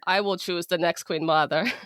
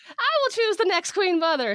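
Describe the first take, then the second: First: It is read in the speaker's own plain voice. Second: It is read in a put-on, odd foreign accent.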